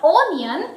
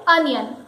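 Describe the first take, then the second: First: "onion" as OH-nee-un; long o opening "onion"; mispronounced onion. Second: "onion" as UN-yun; correct onion. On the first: Teacher rejects a mistake, "onion" with a long o. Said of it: "It is not onion". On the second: Teacher gives the correct word, "onion" as UN-yun. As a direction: open "onion" on a short uh. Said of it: "it is called onion". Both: Shown as a demonstration.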